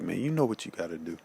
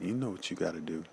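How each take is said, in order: First: Quick, firm command; stern. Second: Said in the usual way. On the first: Retold or imitated. To his fading father, a quick stern order. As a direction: urge him, no nonsense. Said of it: "something in me just kinda just got real stern". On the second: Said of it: "I think I said it like that".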